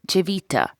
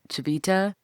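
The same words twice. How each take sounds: First: It is said with an Italian accent. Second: It is said with an English-style accent. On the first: This is how locals say the name. "That's how they would pronounce it wha in Ita Italy" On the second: This is how the speaker used to say it. "I called it"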